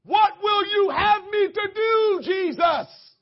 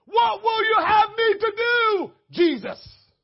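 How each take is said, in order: First: Loud, high, slow shouted plea; crying out to Jesus. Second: High, loud, slow shouted question; Paul crying out. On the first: Shown as a demonstration. Preacher showing the church how to answer God, a loud shouted plea. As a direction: cry it out to heaven. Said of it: "here are four different ways you can respond". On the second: Retold or imitated. Paul answering Jesus on the road, shouted plea. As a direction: call out like Paul did. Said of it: "that's what he said".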